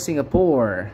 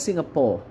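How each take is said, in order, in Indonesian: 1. Ini diucapkan dengan aksen bahasa Inggris Amerika. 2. Ini diucapkan dengan aksen bahasa Inggris Singapura. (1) "Kalau orang Amerika bilang" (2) "Mereka ngomongnya Singapore"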